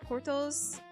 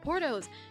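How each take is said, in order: First: It is said in the speaker's ordinary accent. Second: It is said in an exaggerated American accent.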